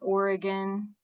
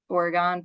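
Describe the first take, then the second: First: It sounds like the usual name of the state. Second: It is said differently from the state's name. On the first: This is the name of the western state. The speaker calls it wrong. "not Oregon, the state" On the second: This is the name of the small Ohio town. The speaker calls it right. "but Oregon, pronounced that way"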